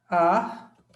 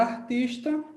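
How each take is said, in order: First: "Artista" split as "ar", "tis", "ta" with long pauses; syllable by syllable. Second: Said in the usual way. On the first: Shown as a demonstration. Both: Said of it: "Vamos fazer a separação silábica".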